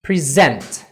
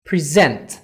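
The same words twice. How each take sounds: Both takes have the same delivery.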